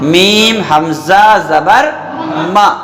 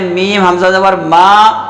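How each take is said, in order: First: The syllable ends abruptly with a glottal catch. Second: The syllable is drawn out smoothly without a catch. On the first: The speaker calls it right. "झटका लेके" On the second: The speaker calls it wrong. "तो यह गलत है"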